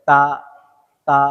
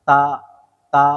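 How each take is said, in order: The two takes are said the same way.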